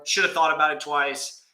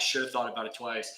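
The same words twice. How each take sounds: First: Said in the usual way. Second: The same line again, much softer, to himself; scolding himself quietly; quiet repeat. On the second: Shown as a demonstration. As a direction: drop the voice and mutter the regret.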